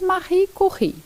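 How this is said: The name is said with a French pronunciation. This is the original pronunciation. The speaker calls it right. "a pronúncia correta é em francês"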